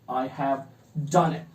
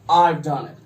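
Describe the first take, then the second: First: Have is spoken as a separate full word. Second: Have is reduced and joined onto I. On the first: The speaker calls it wrong. "Instead of saying this" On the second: The speaker calls it right. "contract them with the subject"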